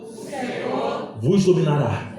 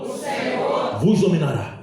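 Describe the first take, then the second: First: It is said plainly, without special conviction. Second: It is said with fervent, faith-filled conviction.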